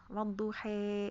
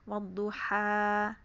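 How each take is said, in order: First: The final vowel is an 'e' sound. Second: The final vowel is an open 'a' sound. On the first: "itu adalah namanya imalah kubro gitu" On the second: "Kalau kita wadduha ya"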